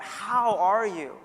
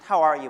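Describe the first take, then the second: First: It is asked with sincere, deliberate, genuine inflection. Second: It is asked in a quick, casual small-talk way. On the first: A real wish to know how the person is. The speaker calls it right. "asking a little bit more genuinely" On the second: A routine greeting that expects no real answer. The speaker calls it wrong. "not just"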